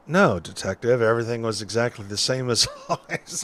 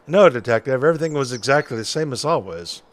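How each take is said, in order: First: Noir detective. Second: Quick, lightly voiced noir witness; noir detective. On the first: Acted. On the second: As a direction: rattle it off like an old-timey noir character. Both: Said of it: "detective noir voice".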